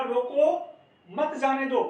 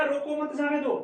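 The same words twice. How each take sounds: First: "रोको" loud and rising, then a clear pause; raised "रोको", a beat of silence, then the rest; pause after रोको. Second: "रोको" runs right into the next word, higher; higher, joined-up phrase, no stop after "रोको"; no pause, straight through. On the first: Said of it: "रोको के बाद में यति हुई है". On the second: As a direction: say it in one go with no break after "रोको". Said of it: "बालक ने सीधा लिख दिया". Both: Shown as a demonstration.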